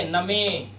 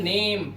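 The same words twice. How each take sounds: First: "नमे" in two syllables, na-may; wrong reading. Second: "नेम" as one syllable, silent final e; "नेम" with no vowel after m; correct reading. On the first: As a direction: sound the silent e at the end of "नमे". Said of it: "नमे नहीं पढ़ते". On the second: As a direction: say "नेम" ending on the m. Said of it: "आपको पता है इसे क्या पढ़ते हैं?". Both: Shown as a demonstration.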